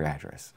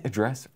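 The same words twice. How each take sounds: First: "address" stressed on the first syllable, AD-dress; "address" opening on a full, stressed "add"; alternative pronunciation. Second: "address" stressed on the second syllable, uh-DRESS; "address" with a weak first vowel and weight on DRESS; alternative pronunciation. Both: Shown as a demonstration. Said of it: "Is it address or address?".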